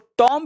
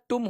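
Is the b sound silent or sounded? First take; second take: sounded; silent. First: The b sound is pronounced at the end. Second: The b sound is left silent at the end. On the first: The speaker calls it wrong. "इसको टॉम्ब भी नहीं पढ़ेंगे" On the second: The speaker calls it right. "इसका real pronunciation टुम होता है"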